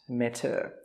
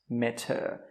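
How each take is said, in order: No difference in how they are said.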